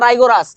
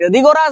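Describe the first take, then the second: First: The first syllable is said as 'rai'. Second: The first syllable is said as 'ri'. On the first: "যেটা উচ্চারণ করো দুটোই correct" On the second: "যেটা উচ্চারণ করো দুটোই কারেক্ট"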